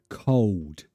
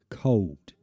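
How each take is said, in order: No difference in how they are said.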